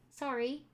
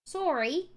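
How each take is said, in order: First: Said in the usual way. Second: Canadian "Sorry" said as SORE-ee; put-on Canadian "Sorry"; Canadian accent. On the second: Shown as a demonstration. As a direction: round the first vowel of "Sorry" like a Canadian. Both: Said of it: "Do the Canadian accent for Jen".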